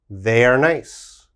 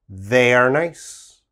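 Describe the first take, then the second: No difference in how they are said.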